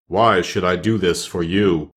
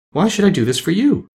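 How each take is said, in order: First: Low, slow challenge from the great head. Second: High-pitched lady's questioning voice; lovely lady. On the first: The head challenges Dorothy's plea, low and slow. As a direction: demand a reason, low and slow. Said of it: "asked Oz". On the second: The lady questions the Scarecrow's plea, high and light. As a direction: ask in a high, ladylike voice. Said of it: "asked the lady". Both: A narrator's reading.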